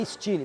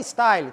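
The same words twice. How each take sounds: First: The word is said with a French pronunciation. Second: The word is said with an English pronunciation. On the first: The speaker calls it right. "É Style" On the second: The speaker calls it wrong. "não é Style"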